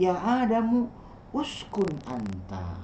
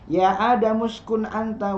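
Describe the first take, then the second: First: The words are said separately, each vowel sounded. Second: The words are run together in one stream. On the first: "asalnya dari" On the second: "karena dibacanya sekaligus"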